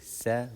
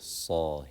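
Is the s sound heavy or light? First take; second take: light; heavy. First: The s sound is light and thin. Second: The s sound is heavy and full. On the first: The speaker calls it wrong. "We don't say sa" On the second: The speaker calls it right. "we say saw here"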